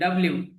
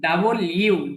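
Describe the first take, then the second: First: The letter name is blended into dabliu. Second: The letter name is said as double you. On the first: The speaker calls it wrong. "আমরা আগে পড়েছি ডাব্লিউ" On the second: The speaker calls it right. "কিন্তু উচ্চারণটা কি হবে?"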